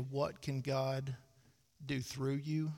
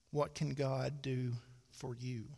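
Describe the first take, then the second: First: "through" weighted, very slow and deliberate; slow down and land on "through"; stress on THROUGH. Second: "for" stressed, said slowly. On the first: Preacher rephrases the question slowly, stressing "through". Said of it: "Can I change it to". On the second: Preacher asks congregation slowly, leaning on "for". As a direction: lean on the word "for" in "What can God do for you". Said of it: "can I change one word". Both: Shown as a demonstration.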